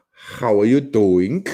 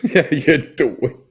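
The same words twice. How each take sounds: First: Slow, loud attempt at a German accent. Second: Loud, stretched imitation Jersey greeting; Jersey accent. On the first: Shown as a demonstration. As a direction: spell out each word in a mock German accent. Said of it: "say it with a German accent". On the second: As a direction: echo the Jersey catchphrase, higher and louder. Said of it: "that's a Jersey thing".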